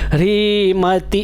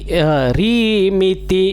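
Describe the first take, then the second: First: The second syllable has the vowel 'a'. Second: The second syllable has the vowel 'i'. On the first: The speaker calls it wrong. "मति मत बोलिएगा" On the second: The speaker calls it right. "मिति है"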